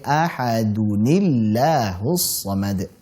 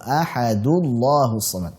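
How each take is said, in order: First: An n sound with i links the words. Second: The words join directly with no n sound. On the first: The speaker calls it right. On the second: The speaker calls it wrong.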